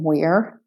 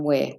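First: It is said in an American accent. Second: It is said in an Australian accent. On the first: "So American wear" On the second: "and Australian wear"

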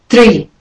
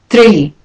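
No difference in how they are said.

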